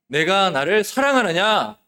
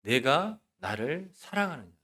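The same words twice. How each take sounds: First: Loud, higher, slow proclamation; speaking as Jesus. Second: Slow, soft, solemn question; speaking as Jesus. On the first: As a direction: raise the voice and press the question slowly. (예수님처럼 크고 높게, 힘주어 천천히) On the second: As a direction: ask it softly, leaving space between words. (예수님처럼 느리고 나직하게) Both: Acted. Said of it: "예수님이 말씀하시는 것처럼 들으시기 바랍니다".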